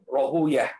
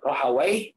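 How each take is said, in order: First: The name ends with the sound 'uyah'. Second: The name ends with the sound 'wai'. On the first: This is how most hadith scholars read it. "Kebanyakan alul hadis membacanya dengan Rohuyah" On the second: This ending is avoided because it resembles a devil's name. "bisa dibaca dua ya"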